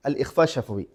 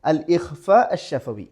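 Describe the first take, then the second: First: Said in the usual way. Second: Slow, drawn out അൽ ഇഖ്ഫ അഷ്-ശഫവി for students; slow teaching read. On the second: Shown as a demonstration. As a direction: spell the term out slowly. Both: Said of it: "first one".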